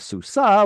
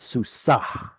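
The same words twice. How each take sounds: First: The word ends in a plain open vowel. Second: The word ends with an audible breathy h. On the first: A female horse. "which is a female horse" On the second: A male horse belonging to her. "consonantal hey there tells us that it's it's a male horse that belongs to her"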